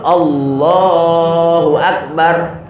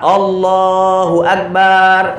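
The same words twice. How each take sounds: First: The syllable 'bar' is kept short and firm. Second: The syllable 'bar' is drawn out long. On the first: The speaker calls it right. "Yang betul" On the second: The speaker calls it wrong. "jangan manjangkan ba"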